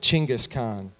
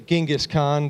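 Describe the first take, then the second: First: The name is said the local Mongolian way. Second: The name is said the usual English way. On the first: "they pronounce it Chinggis Khan" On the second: "we say Genghis Khan"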